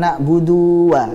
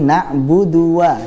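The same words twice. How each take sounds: First: The vowel in 'du' is drawn out long. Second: The vowel in 'du' is kept short. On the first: The speaker calls it wrong. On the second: The speaker calls it right.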